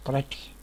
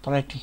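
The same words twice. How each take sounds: First: پریٹی said as English pretty, PRI-ti; English pronunciation; English word. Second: پریٹی said again as pretty after spelling it; English word repeated. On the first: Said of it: "انگریزی صورت ہوگی اس کی". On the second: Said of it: "double T Y". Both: Shown as a demonstration.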